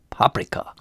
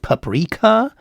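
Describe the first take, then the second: First: The stress is on the first syllable. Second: The stress is on the second syllable. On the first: "with the stress on the first syllable" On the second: "it's pronounced paprika?"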